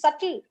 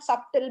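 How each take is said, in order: First: The b sound is left silent. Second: The b sound is clearly pronounced. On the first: The speaker calls it right. "but it is subtle" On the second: The speaker calls it wrong. "because sub comes, I used to pronounce subtle ... it is not subtle"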